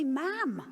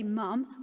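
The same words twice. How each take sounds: First: "ma'am" said with an open, drawn a; Hartlepool pronunciation. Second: Said in the usual way. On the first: Shown as a demonstration. Showing the audience how Hartlepool says "ma'am", regional pronunciation. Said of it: "they say "ma'am". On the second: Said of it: "they don't say "mum".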